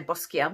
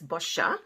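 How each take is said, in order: First: It is said with an ordinary English accent. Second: It is said with an Italian accent. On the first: "some people say" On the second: "if you pronounce it with an Italian accent"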